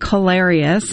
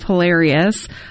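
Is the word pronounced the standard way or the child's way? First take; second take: child's way; standard way. First: It is pronounced the way the child said it. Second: It is pronounced the usual standard way. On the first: "my oldest would say hilarious" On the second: "instead of hilarious"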